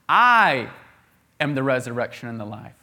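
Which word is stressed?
I. The word "I" carries the main stress. The speaker himself is the one. "It's Jesus. He's the one"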